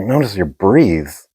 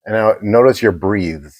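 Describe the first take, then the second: First: Slow, puzzled repeat of "breathes" with a long ee; puzzled echo. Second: "breathes" said with a long ee and a voiced th instead of "breath"; mispronounced breathes. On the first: Retold or imitated. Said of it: "I was like". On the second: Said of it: "and he goes".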